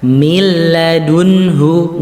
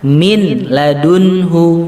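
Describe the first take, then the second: First: The n merges into l with no nasal hum. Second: The n is pronounced clearly before the l. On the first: The speaker calls it right. "bacanya milladunhu" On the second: The speaker calls it wrong. "nggak boleh dibaca min ladunhu"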